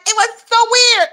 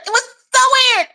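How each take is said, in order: First: Said in the usual way. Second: Higher and faster, breaking into a laugh; giggling disbelief. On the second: Real, not acted. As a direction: blurt it out again through laughter. Laughing disbelief at odd memory.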